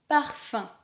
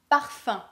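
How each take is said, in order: Both takes have the same delivery.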